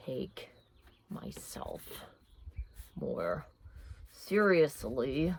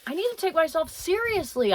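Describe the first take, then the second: First: Hushed, slow, deliberately hammed-up sincerity; mock solemn journaling. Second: Said in the usual way. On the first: Vlogger pretending to journal a resolution, hammed-up hush. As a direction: pretend to write a grave resolution, badly acted. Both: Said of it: "Bad acting".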